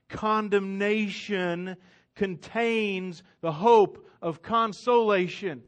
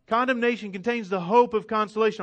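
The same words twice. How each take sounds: First: Slow, weighty statement of the theme; drawn-out key sentence; slow and deliberate. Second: Faster repeat of the theme; brisk repeat of the key line; quick restatement. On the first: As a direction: let each word land slowly. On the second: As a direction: rattle the line off brisk and firm. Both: Shown as a demonstration. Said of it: "if you don't hear anything else".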